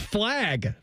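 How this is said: The vowel sounds like the a in 'cat'. This is the speaker's own usual way. The speaker calls it right. "It's flag. Pronounce it as flag. There's no E in there"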